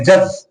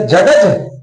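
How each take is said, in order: First: जज with a silent d, just ज-ज; correct reading. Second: जडज with the d sounded: ज-ड-ज; deliberately wrong जडज, d spelled out; wrong reading. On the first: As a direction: say जज dropping the d entirely. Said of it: "जज बोलेंगे". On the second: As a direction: say जडज pronouncing the d before ज. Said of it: "जडज बोलेंगे नहीं". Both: Shown as a demonstration.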